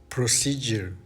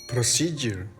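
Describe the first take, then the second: Both takes have the same delivery.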